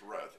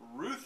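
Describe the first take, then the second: First: The vowel sounds like the one in mouth. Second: The vowel sounds like the one in truth. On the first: "It rhymes with mouth" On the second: "it's like a lady name"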